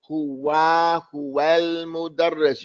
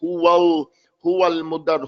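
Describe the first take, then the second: First: "huwa" with a clear open "wa"; "huwal mudarris" slowly, open a after the w; correct open fatha. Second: "huwal" with the a rounded towards o; wrong, rounded fatha. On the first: Teacher modelling the fatha, slow, open "wa". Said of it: "You want to say". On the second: Teacher showing what to avoid, rounded "wo" in "huwal". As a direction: round the vowel to "huwol". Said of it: "You don't want to say". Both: Shown as a demonstration.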